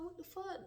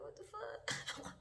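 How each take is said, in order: First: High, startled exclamation of disbelief; shocked what the fuck. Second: High, slow, breathy drawn-out what the fuck; drawn-out disbelief. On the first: Retelling spotting the boy after years, high startled disbelief. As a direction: blurt it out, caught off guard. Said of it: "I was like". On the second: Retelling seeing the boy again, slow high stunned disbelief. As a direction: stretch it out, stunned all over again. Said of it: "And I'm like". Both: Retold or imitated.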